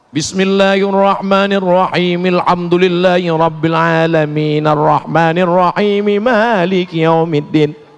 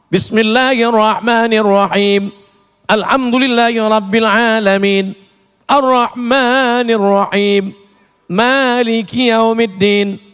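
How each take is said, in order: First: The phrases run together without stopping. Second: It stops with a pause after each phrase.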